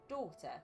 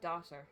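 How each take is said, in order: First: It is said in a British accent. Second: It is said in an American accent.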